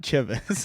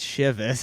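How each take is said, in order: First: It begins with a hard 'ch' sound, like 'cha'. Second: It does not begin with a hard 'ch' sound. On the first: The speaker calls it wrong. "it's not Chivas" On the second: The speaker calls it right. "it's it's Chivas"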